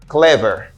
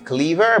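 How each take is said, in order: First: The first vowel is a short e sound. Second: The first vowel is a long ee sound. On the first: The speaker calls it right. "but we say cle, clever" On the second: The speaker calls it wrong. "Apil moun souvent ap di cleaver"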